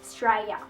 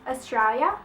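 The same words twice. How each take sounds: First: It is said in a very broad Australian accent. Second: It is said in an ordinary Australian accent. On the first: "a little bit more bogan" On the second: "We just call it Australia"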